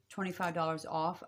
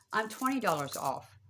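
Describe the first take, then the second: First: Said in the usual way. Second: Twenty said a little higher and louder, falling at the end; corrected price. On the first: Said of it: "I'm sorry. Why am I saying twenty-five?". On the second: Real, not acted. Psychic correcting her own price slip to viewers, stressing twenty. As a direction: lean on twenty to fix the slip. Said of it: "Why am I saying twenty-five?".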